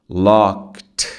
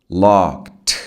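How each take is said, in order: Both takes have the same delivery.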